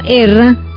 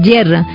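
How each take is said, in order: First: The word starts with a plain vowel sound. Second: The word starts with a clear y sound. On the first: The speaker calls it wrong. "En lugar de decir mucho erra" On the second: The speaker calls it right. "la Y hay que pronunciarla como suena"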